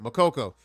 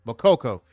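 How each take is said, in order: First: Makoko said carefully as mə-KO-ko, each syllable clear; the careful corrected Makoko; a deliberate fix of Makoko; corrected pronunciation. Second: Makoko said first with the stress slurred, run into underneath; a quick wrong first try at Makoko; the stumbled version of Makoko; mispronounced name. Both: Shown as a demonstration. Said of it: "I'm mispronouncing it".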